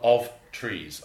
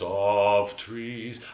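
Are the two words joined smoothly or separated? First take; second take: separated; joined. First: The two words are said separately and choppily. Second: The two words flow smoothly into each other. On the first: The speaker calls it wrong. "So that I don't want of trees" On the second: The speaker calls it right. "I want you to put the ver and the ter almost together"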